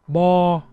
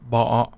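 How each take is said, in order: First: The pitch stays flat and level throughout. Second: The pitch dips down and then curls up. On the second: "it's actually a dip in the sound, and you have to curl it a little bit"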